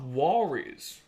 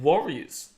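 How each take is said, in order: First: The first syllable sounds like "war." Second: The first syllable sounds like "worry." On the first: "not W A" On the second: "So W O"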